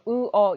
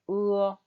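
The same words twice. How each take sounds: First: The two vowel parts are said separately. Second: The two vowel parts glide together smoothly. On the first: The speaker calls it wrong. "이렇게 읽으시면 안 되고" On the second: The speaker calls it right. "바로 연결해서 한 소리처럼 읽으셔야 되는 거예요"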